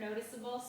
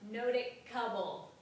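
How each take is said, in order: First: The middle c is a soft s sound. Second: The middle c is a hard k sound. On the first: The speaker calls it right. "You want to keep the sound, this sound right here" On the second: The speaker calls it wrong. "it becomes a hard C sound"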